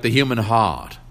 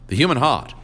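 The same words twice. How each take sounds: First: Said in the usual way. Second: "the human heart" pressed again, a little higher and heavier on "human"; repeated with weight. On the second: Acted. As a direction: lean into "human" the second time. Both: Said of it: "he repeated".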